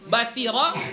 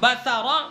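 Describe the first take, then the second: First: An i vowel follows the s sound. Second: An a vowel follows the s sound. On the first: "dengan mengkasrahkan sa" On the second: "memfathahkan sa"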